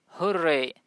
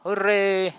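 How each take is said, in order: First: Said in the usual way. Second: Louder, celebratory hurray; demonstrated joyful exclamation; happy cheer. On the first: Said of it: "आप जब कोई खुश होता है तो बोलता है ना". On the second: Shown as a demonstration. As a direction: cheer it out like someone delighted. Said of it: "कोई खुश होता है तो बोलता है".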